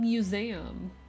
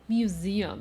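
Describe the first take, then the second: First: The word is said in a Southern US way. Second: The word is said in a general, non-Southern way. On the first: The speaker calls it right. "I say things as a fucking southerner" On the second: The speaker calls it wrong. "It's not museum"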